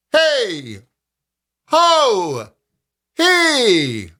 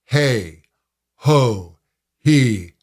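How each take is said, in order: First: High projected call, not pressed. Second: Said in the usual way. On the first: Shown as a demonstration. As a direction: call out across a parking lot. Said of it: "So you can use a calling voice". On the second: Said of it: "you can use a calling voice".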